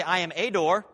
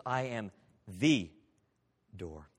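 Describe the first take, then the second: First: "a" said as a full, pushed ay; stress on a. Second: Slow, with "the" weighted and "door" dropped soft; stress on the. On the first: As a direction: lean on "a" in "I am a door". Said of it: "Notice Jesus doesn't say". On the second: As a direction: draw out "the" before a quiet "door.". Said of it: "No, he says". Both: Shown as a demonstration.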